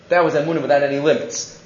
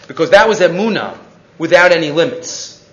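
First: Quicker, softer restatement; quietly restating the point for emphasis; softer repeat. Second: Driving the point home with stress on "without". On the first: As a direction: say it again under the breath, quickly. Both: Shown as a demonstration.

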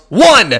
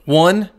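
First: Sudden high, loud shout; imitated yell, far louder and higher; yelled count. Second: Deliberate count, raised and firm; imitating a warning count. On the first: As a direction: yell it out as a mock threat. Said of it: "and then he yells". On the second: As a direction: count it off loudly, then leave a pause. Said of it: "And so he counts".

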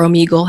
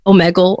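First: Omegle said oh-MEE-gul, long e; alternative pronunciation of Omegle. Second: Omegle said oh-MEG-ul, short e; first pronunciation of Omegle. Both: Shown as a demonstration. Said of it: "however people wanna pronounce it".

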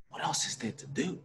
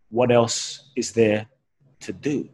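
First: Whispered to himself in disbelief; stunned, unvoiced whisper of the words; awed whisper. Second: Slow, deliberate quote of a wise man; slow, weighty repeat of the beggar's words; quoting the beggar. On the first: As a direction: breathe the question as it sinks in. Stunned, repeating the answer to himself. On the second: Retold or imitated. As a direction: let each word land slowly. Quoting the blind beggar's answer.

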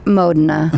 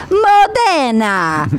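First: "Modena" short and lower, stress on MO, "MOE-de-na"; local pronunciation. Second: "Modena" drawn out slowly, stress on DE, "mo-DAE-na"; wrong pronunciation. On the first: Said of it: "and they're just like". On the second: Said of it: "I'm like". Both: Retold or imitated.

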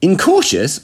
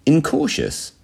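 First: High, louder incredulous echo; utter amazement. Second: High, careful INCAUTIOUS after a pause; delicate understatement. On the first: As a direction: throw the word back, astonished. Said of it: "my mind tumbled into utter amazement". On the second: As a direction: set the word down gingerly. Spy delicately finishes his admission. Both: A narrator's reading.

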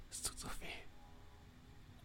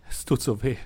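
First: Breathy, voiceless whisper of pain. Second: Voiced, tearful pained moan. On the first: Acted. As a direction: barely breathe the words out. Crying man whispers. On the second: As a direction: moan it out through tears. Same words voiced earlier.

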